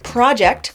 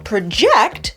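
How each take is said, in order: First: The stress is on the first syllable. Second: The stress is on the second syllable. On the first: It is a noun for a planned enterprise. "stress on the first syllable" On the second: It is a verb meaning to estimate or forecast. "stress on the second syllable"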